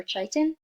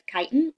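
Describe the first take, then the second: First: "chitin" with a ch sound, CHAI-tin; alternative pronunciation attempt. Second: "chitin" with a hard k, KAI-tin; pronunciation attempt. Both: Shown as a demonstration. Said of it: "Not really sure how you pronounce that".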